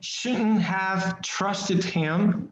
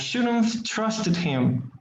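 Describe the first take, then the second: First: The word 'have' is pronounced fully and separately. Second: The word 'have' is reduced into 'shouldn't'. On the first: The speaker calls it wrong. "we are not saying" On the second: The speaker calls it right. "We are saying shouldn't"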